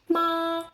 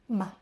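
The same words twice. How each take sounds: First: It is said on a high, level pitch. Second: It is said short, light and unstressed. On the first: "we have a first tone" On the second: "The neutral tone would be ma"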